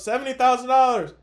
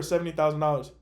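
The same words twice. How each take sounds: First: Higher, louder mock holler; retold yell. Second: Said in the usual way. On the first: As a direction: imitate her yelling it to mom. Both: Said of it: "And then she yells".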